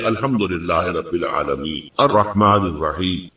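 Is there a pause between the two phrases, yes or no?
yes. There is a pause between the two phrases.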